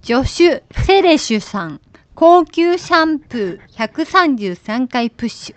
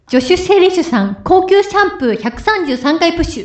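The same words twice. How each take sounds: First: It is said slowly. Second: It is said at normal speed.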